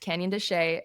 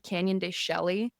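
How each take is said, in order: First: The name is pronounced differently from its spelling. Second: The name is pronounced the way it is spelled. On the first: The speaker calls it right. "but it's Canyon de Chelly" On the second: The speaker calls it wrong. "It's often mispronounced, by the way, because it's spelled Canyon de Chelly"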